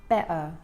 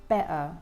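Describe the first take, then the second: Both takes have the same delivery.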